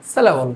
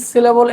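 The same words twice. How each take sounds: First: সিলেবল with first vowel between i and e; American-style pronunciation. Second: সিলেবল with a clear "si" first vowel; non-American pronunciation. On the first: Teacher shows how Americans say it, সিলেবল with a loosened first vowel. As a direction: relax the first vowel of সিলেবল, falling at the end. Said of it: "রস্বইকার এবং একারের মাঝামাঝি". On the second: Teacher shows the form Americans avoid, সিলেবল with a plain "si". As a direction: say সিলেবল straight, as "si-le-bol". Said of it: "সরাসরি সিলেবল এইভাবে না বলে". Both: Shown as a demonstration.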